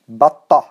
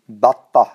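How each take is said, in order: First: The word ends with a soft h sound. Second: The same.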